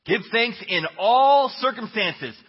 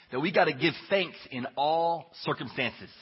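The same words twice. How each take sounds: First: Louder, slow, stress on "all"; emphatic preaching repeat. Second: Said in the usual way. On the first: Shown as a demonstration. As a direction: hammer home "all" slowly and loudly.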